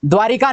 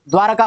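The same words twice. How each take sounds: First: द्वारिका with ri in the middle; mistaken i. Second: द्वारका with ra in the middle; corrected a. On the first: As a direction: say द्वारिका as dvaa-ri-ka. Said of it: "नहीं होती". (द्वारिका, रि में इ) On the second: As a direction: say द्वारका as dvaa-ra-ka. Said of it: "होती है". (द्वारका, र बिना इ) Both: Shown as a demonstration.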